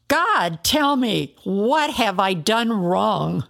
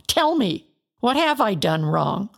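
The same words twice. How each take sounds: First: Crying up to the sky for an answer; desperate outcry. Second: A desperate outcry at his friends; anguished plea. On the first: Job cries upward to God. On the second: Job pleads against accusing friends. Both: Acted.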